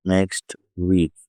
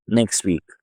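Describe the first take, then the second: First: Said in the usual way. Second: "నెక్స్ట్ వీక్" as "neks-week", no T; dropped T. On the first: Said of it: "ఇలా పలుకుతాం". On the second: Shown as a demonstration. Teacher mimics British speakers, "నెక్స్ట్ వీక్" with T dropped. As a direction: run "నెక్స్ట్" straight into "వీక్" without its T. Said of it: "టా అనేది తీసేస్తారు".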